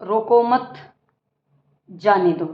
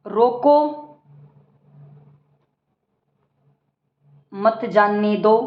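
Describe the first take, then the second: First: "रोको मत" together, long pause, lower "जाने दो"; pause after मत. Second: Long pause after "रोको", then "मत जानने दो" together. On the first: Teacher showing how punctuation changes meaning, pause after "मत". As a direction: join "रोको मत", stop, then drop on "जाने दो". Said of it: "फ़र्क है तो विराम चिन्हों का है". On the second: Teacher showing how punctuation changes meaning, pause after "रोको". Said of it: "विराम चिन्हों का उपयोग करना". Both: Shown as a demonstration.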